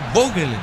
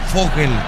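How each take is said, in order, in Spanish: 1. La palabra empieza con sonido B. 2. La palabra empieza con sonido F. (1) "Es Vogel" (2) "no es Fogel"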